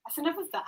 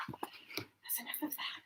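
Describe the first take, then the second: First: Said in the usual way. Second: Slow breathy whisper of "That's enough of that". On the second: Shown as a demonstration.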